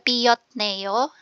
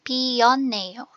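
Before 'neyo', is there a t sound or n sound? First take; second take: t sound; n sound. First: A t sound comes before the final neyo. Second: An n sound comes before the final neyo. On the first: The speaker calls it wrong. "hindi siya piyotneyo" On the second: The speaker calls it right. "Magiging pionneyo"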